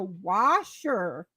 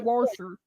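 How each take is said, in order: First: The word is said without an added R sound. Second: The word is said with an added R sound. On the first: This is how northerners say it. The speaker calls it right. "us up in Minnesota was fucking laughing because we're like, it's a washer" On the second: This is how southerners say it. The speaker calls it wrong. "they add an R into it"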